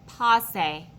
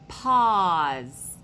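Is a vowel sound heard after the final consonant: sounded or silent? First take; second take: sounded; silent. First: An extra vowel sound is heard at the end. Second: No vowel sound is heard at the end. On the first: The speaker calls it wrong. "We wouldn't say passe" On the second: The speaker calls it right. "No, this is the word pause"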